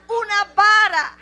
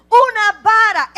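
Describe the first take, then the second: First: Loud, firm declaration; firm answer to the question. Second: Much louder, high, with "Una" punched; shouted answer. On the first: ("Una vara" dicho fuerte y firme) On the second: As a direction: drive it home harder. ("Una vara" gritado, golpeando "Una") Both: Acted. Answer repeated with rising force.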